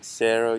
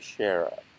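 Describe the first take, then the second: First: The name begins with a plain s sound. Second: The name begins with an sh sound. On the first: "instead of saying Sarah" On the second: "all the S sounds turn into sh sounds"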